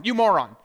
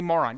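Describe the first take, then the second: First: Louder, punched-out name-calling; mock angry insult. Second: Said in the usual way. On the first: Preacher acts out someone insulting another, mock angry. Throws the same word as insult.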